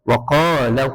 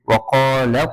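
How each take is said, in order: No difference in how they are said.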